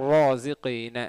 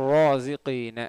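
Both takes have the same delivery.

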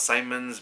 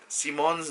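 First: The name is pronounced the English way. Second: The name is pronounced the Belgian way. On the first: The speaker calls it wrong. "not Simons" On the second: The speaker calls it right. "I said Simons, because he is Belgian"

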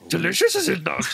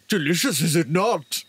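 First: It is said in a stronger Yoda-like voice. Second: It is said in a mild Yoda-like voice.

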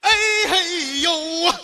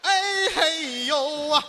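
First: It is said loudly and forcefully. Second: It is said fairly softly.

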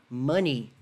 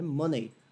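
First: It is said the standard English way. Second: It is said the common learner way. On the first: The speaker calls it right. "Ela é pronunciada money" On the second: The speaker calls it wrong. "Não é money, como a maioria das pessoas falam"

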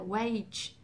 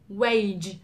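First: The final sound is a voiceless ch sound. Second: The final sound is a voiced j sound. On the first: The speaker calls it wrong. "nó qua cái âm unvoiced ch" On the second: The speaker calls it right. "mình phải rung"

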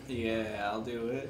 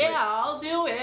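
First: It is said flatly, without enthusiasm. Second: It is said with lively enthusiasm.

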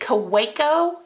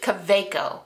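First: The middle consonant is an English w sound. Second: The middle consonant is a v sound.

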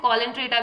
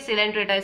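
First: The word begins with a k sound. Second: The word begins with an s sound. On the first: The speaker calls it wrong. "कोई कोई बच्चे ना इसे कॉलेंट्रेटा भी बोलते हैं, बेटा ये कॉलेंट्रेटा नहीं होता है" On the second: The speaker calls it right. "सिलेंट्रेटा इसे बोला जाता है"

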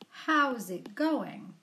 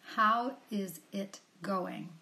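First: The first two words are contracted together. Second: Each word is said separately and fully. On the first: "We can contract it and say" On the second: "Here's the expression again"

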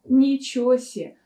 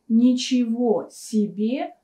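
First: The second word is cut to one syllable. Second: The second word is said in full, two syllables. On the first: "можно произнести как «ничего се»" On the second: "выражение «ничего себе»"

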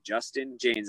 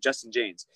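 First: The name is said slowly with every sound clear. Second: The name is said quickly in a relaxed way.

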